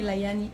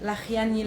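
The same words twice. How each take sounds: First: "Layani" with a smooth y glide; softened pronunciation. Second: "Lachiani" with a throaty ch in the middle; guttural pronunciation. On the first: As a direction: say "Layani" with y instead of throaty ch. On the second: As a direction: say "Lachiani" with a rasped kh after La. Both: Shown as a demonstration. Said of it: "Depends how you pronounce it".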